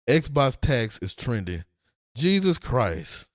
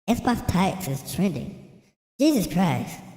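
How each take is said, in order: First: It is read in his normal voice. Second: It is read in a mocking baby voice.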